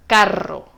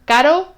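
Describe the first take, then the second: First: "carro" with a rolled, multi-bounce rr, falling tune; strong trilled r. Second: "Caro" with one light tap on the r, pitch rising; soft single-tap r. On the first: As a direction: roll the rr of "carro" and let it fall. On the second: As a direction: lift "Caro" up, flicking the r just once. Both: Shown as a demonstration. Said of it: "ver si ves la diferencia".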